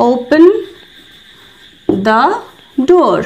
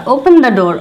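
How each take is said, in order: First: Long pauses between words; teacher dictation; slow word-by-word demo. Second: Said in the usual way. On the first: Shown as a demonstration. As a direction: say it so learners can copy. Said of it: "তো এটার জন্য বলবো". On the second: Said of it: "D double R".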